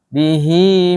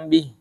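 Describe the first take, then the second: First: The word ends with a long vowel. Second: The word ends on h with no vowel. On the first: "Bihinya panjang" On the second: "kalau berhenti"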